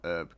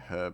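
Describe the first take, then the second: First: The word begins without any h sound. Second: The word begins with an audible h sound. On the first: The speaker calls it wrong. "not herb" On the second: The speaker calls it right. "I personally say herb"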